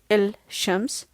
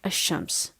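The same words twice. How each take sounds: First: The opening sounds heavy, with a strong buzz. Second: The opening sounds smooth, without a strong buzz. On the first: The speaker calls it wrong. "there is a big buzz when I say الشمس" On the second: The speaker calls it right. "comparing to saying الشمس"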